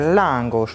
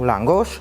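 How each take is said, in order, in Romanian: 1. Accentul cade pe prima silabă. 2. Accentul cade pe a doua silabă. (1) "în maghiară se pune accentul pe prima silabă" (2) "nu langoș"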